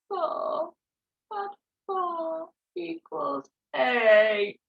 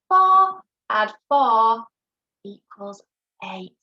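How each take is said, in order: First: It is said in a put-on crying voice. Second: It is said in a normal speaking voice.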